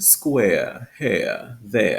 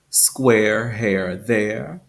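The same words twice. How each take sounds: First: Each word ends with a schwa glide, no R. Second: Each word ends with a pronounced R sound. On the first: "in received pronunciation... replaced by that schwa sound" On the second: "in General American English"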